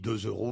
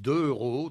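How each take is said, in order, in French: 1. Un son z lie deux à euros. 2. Aucun son z ne lie deux à euros. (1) "donc on dit deux euros" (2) "Et les gens disent deux euros"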